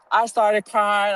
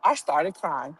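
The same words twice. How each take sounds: First: Slow, louder repeat of I started crying; slowed, weighted I started crying; emphatic repeat. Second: Said in the usual way. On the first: Shown as a demonstration. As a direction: lean into I started crying the second time.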